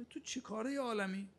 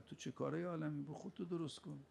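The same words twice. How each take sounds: First: تو چه کارهٔ عالمی with کارهٔ lifted high and pointed; sharp rebuke. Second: Softer rebuke. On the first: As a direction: fling the question up at the listener. Preacher rebukes angry believer. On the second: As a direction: let the question drop quietly. Preacher rebukes again, quieter. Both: Acted.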